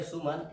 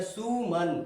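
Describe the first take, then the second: First: सुमन said with a brief u; short u. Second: सुमन with the u drawn out; long heavy u. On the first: Teacher gives the word before stretching it, short u. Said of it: "भारी आवाज़ में बोलेंगे". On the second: Teacher shows the big matra, long heavy u. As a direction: lengthen and press the u in सुमन. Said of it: "उसको भारी आवाज़ में बोलेंगे". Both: Shown as a demonstration.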